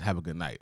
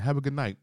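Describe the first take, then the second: First: Said in the usual way. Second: A pointedly bright, higher goodnight; pointed goodbye. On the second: Retold or imitated. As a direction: say goodnight meaning get out. Manager dismissing the customer.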